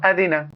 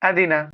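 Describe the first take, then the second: The two takes are said the same way.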